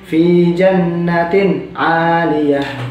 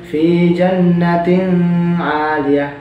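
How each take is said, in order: First: The n sound is plain without nasal hum. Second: The n sound is held with a nasal hum. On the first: The speaker calls it right. "tapi fi jannatin aliyah" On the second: The speaker calls it wrong. "bukan fi jannatin aliyah, bukan dengung"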